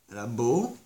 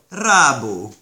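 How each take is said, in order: First: The stress is on the last syllable. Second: The stress is on the first syllable. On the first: It is growing now. "Hogyha a jelen időben van, akkor ugye úgy mondjuk" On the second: It has already grown. "hogyha múlt idő, akkor rábó"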